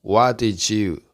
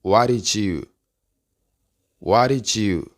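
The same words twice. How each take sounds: First: "What did you" joined as "wa-di-chu", keeping a stop; linked words. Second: "What did you" joined as "wari-chu"; linked with tapped r. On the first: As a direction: say "What did you" as one word ending in a ch sound. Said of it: "se unen y se pronuncia". ("What did you" unido, como "uadichu") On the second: ("What did you" unido, como "uarichu") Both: Shown as a demonstration.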